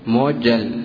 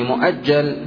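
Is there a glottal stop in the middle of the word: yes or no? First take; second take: no; yes. First: A long vowel replaces the glottal stop. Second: A glottal stop follows the first syllable. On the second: "وفي مؤجل"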